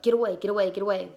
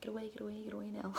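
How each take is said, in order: First: Firm shooing a dog away; mild yell to chase off a dog; retold shooing. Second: Very soft, under the breath; tiny mock shooing, much softer; hushed shooing. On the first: Woman kicking the dog away from the babies, retold shooing. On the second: Woman shooing the dog from her babies, hushed retelling.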